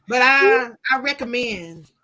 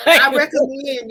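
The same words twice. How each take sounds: First: Hesitant, half-hearted endorsement; disappointed. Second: Louder, slow, laughing insistence; emphatic recommendation. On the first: Woman reluctantly recommending her book, sounding disappointed. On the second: Author answering a teasing remark about sounding disappointed, laughing and emphatic. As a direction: push the endorsement loudly through a laugh. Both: Real, not acted. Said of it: "You sound so disappointed".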